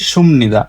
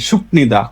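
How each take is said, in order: First: The first syllable ends with an m sound. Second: The first syllable ends with a p sound. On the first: The speaker calls it right. "কিন্তু আর আসল উচ্চারণ হচ্ছে সুমনিদা" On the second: The speaker calls it wrong. "যখন নতুন নতুন কোরিয়ান শিখে সবাই বলে সুপনিদা"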